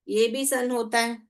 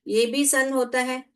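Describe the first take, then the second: The two takes are said the same way.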